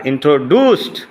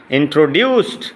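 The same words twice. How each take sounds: First: ইন্ট্রোডিউসড with a plain "doo"; American pronunciation. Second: ইন্ট্রোডিউসড with a "dyoo" glide; British pronunciation. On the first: Teacher contrasts two accents for students, American pronunciation. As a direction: say ইন্ট্রোডিউসড as "intro-doost", no glide. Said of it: "হুসু বললে American". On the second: Teacher contrasts two accents for students, British pronunciation. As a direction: say ইন্ট্রোডিউসড as "intro-dyoost". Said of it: "ইউ বললে". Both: Shown as a demonstration.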